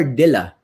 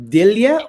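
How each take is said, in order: First: "Dilla" with no y-glide, ending in plain -la; pronounced Dilla. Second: "Dilia" with a y-glide before the final a; pronounced Dilia. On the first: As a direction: say "Dilla" as DIL-la. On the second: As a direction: say "Dilia" as DIL-ya. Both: Shown as a demonstration. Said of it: "how do you pronounce your last name".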